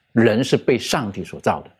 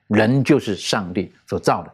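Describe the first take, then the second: First: 人 stressed, sentence falling to its end. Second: 就 stressed firmly, sentence falling to its end. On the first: Host stressing that humans were created, weight on 人. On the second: Host insisting humans are God's creation, weight on 就. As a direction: press on 就 to insist on it. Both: Shown as a demonstration. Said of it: "很强调一点".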